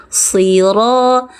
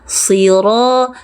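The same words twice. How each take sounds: Both takes have the same delivery.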